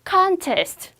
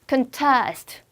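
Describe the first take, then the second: First: The stress is on the first syllable. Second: The stress is on the second syllable. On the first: It is used as a noun. "명사 갈 때는 역시 앞강세" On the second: It is used as a verb. "강세 뒤로 뺐어요"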